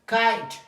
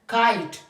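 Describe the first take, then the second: Both takes have the same delivery.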